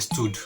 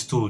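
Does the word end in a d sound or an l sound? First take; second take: d sound; l sound. First: The word ends with a d sound. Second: The word ends with an l sound. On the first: The speaker calls it wrong. "they say stood" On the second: The speaker calls it right. "Instead of saying stool"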